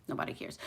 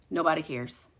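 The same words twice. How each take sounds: First: Breathy whispered repeat. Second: Said in the usual way. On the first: Shown as a demonstration. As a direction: drop to a whisper for the echo. Repeats line, then whispers it.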